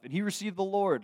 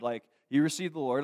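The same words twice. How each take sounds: First: Rising high on the Lord, thrilled; bright, lifted joyful line; joyful emphasis. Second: Leaning on he, settling back down; firm restatement. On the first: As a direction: announce it like good news. Joyful report of conversion. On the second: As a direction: say it again, steady and sure. Repeat of conversion, calmer. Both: Real, not acted.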